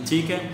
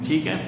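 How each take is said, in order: The two takes are said the same way.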